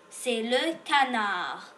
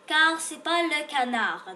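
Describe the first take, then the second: First: Canard said with a silent D, ending kanar; correct pronunciation. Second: Canard said with the final D sounded, as canarde; wrong pronunciation. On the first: Teacher giving the correct canard to a child. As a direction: drop the final D of canard. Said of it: "On prononce pas le D". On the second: Teacher showing the wrong way to say canard. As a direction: voice the silent D in canard on purpose. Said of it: "on ne le prononce pas". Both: Shown as a demonstration.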